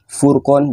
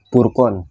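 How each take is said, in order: First: The word begins with an F sound. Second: The word begins with a P sound.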